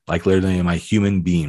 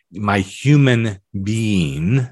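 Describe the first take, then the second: First: Brisk, rushed repeat; quick clarifying rephrase; quick restatement. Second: Drawn-out, word by word; slowed down. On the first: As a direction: rattle off "like literally in my human being" fast. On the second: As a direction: let each word of "my human being" stretch slowly. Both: Shown as a demonstration.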